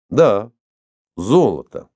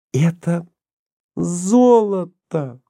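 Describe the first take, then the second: First: Cool, matter-of-fact agreement; cold confirmation. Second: High, very drawn-out ЗОЛОТО in wonder; awed delight. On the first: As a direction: confirm it coolly, without any wonder. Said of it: "холодно подтвердил Иван Павлович". (холодно, сдержанно) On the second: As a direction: marvel at the find, stretching the word slowly. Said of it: "прошептала она, восхищённая своей находкой". (восхищённо, заворожённо) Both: A narrator's reading.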